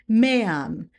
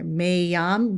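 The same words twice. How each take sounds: First: The two vowels are separate with no glide. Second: A Y sound glides between the vowels. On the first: The speaker calls it right. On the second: The speaker calls it wrong.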